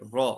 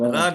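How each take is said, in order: First: The r is said heavy, with a rounded vowel. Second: The r is said light, with a thin vowel. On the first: The speaker calls it right. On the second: The speaker calls it wrong. "रा नहीं"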